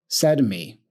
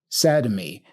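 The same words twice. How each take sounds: Both takes have the same delivery.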